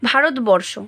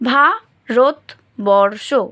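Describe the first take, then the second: First: The word is said smoothly as one unit. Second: The word is broken into syllables with short pauses.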